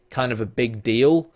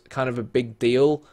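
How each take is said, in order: Both takes have the same delivery.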